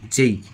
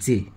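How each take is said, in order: First: The letter name ends in an 'ei' glide. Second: The letter name ends in a plain 'e' vowel. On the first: The speaker calls it right. "এটা সঠিক উচ্চারণ হচ্ছে যেই" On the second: The speaker calls it wrong. "জে বলা যাবে না"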